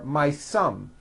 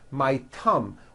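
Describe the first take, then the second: First: The word begins with an s sound. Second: The word begins with a t sound. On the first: "or an S" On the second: "you just substitute another sound, like a T"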